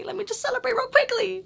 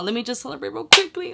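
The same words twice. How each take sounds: First: Very high-pitched celebratory singsong; giddy squeal. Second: Quick, higher-pitched happy aside; excited. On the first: Vlogger celebrating good results, giddy high squeal. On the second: Vlogger about to celebrate good results, excited and quick. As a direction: say it briskly, getting giddy. Celebrating negative test, first take. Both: Real, not acted.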